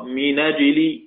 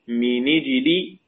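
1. النون تليها الفتحة مباشرة. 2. النون تليها الكسرة مباشرة. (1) "ورش بالفتح" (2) "أبو جعفر بالكسر"

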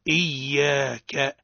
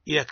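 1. صوت الياء مضعّف ومُمَدّ. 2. صوت الياء قصير وغير مضعّف. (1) "الصواب إياك" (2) "هذا خطأ يفسد المعنى تماما"

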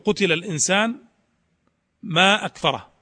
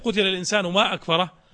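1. يوجد وقف بعد الكلمة الثانية. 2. الكلمات تتصل دون أي وقف. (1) "أحبذ الوقف على قتل الإنسان لتتميز هذه الجملة عن تلك" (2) "لا تتبين أو لا تتميز هذه الجملة عن هذه الجملة"

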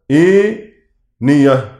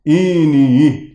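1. الأول يُمال نحو e، والآخر يبقى مفتوحًا. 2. كل الحروف في الكلمة تُمال نحو e. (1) "يميل منها هشام فتحة الهمزة والألف بعدها خالصة، ويفتح الياء والهاء" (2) "قتيبة هيميل كلمة كلها على بعض"

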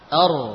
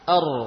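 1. Bunyi r-nya tipis. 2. Bunyi r-nya tebal. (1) "Kalau seperti ini, r ini masih tipis" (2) "ini ra sukun sebelumnya fathah yang tebal"

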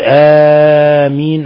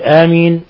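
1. تُمَدّ الحركة الأولى مدًّا متوسطًا، بمقدار أربع حركات تقريبًا. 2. تُقصَر الحركة الأولى، بمقدار حركتين تقريبًا. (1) "على التوسط" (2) "على القصر"

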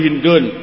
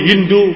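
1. Kata itu berakhir dengan bunyi n. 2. Kata itu berakhir dengan vokal biasa. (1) "Tapi yang lebih bagus munsharif" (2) "boleh kita membacanya malayan sharif"

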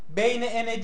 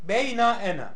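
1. İlk kelime kısa bir ünlüyle biter. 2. İlk kelime uzatılmış bir ünlüyle biter. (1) "Yani beyne ene değil" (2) "Na getirilmiş işba için"

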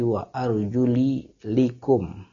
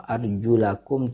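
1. Vokal setelah 'arjul' adalah 'i'. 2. Vokal setelah 'arjul' adalah 'a'. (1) "tapi wa arjuli likum, ma'tuf alal mamsuh" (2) "bukan wa arjulakum"

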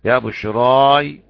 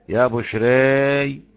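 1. الحركة الأخيرة فتحة خالصة بصوت 'a'. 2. الحركة الأخيرة تميل قليلاً نحو 'e'. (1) "فتح" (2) "وتقليل"

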